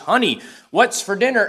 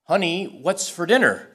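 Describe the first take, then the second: First: It is said in a rather loud voice. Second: It is said at a normal speaking volume.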